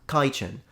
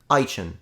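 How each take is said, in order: First: The word begins with a k sound. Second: The word begins without a k sound. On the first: "it becomes kitchen" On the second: "the K is dropped. Now they pronounce it Eichen"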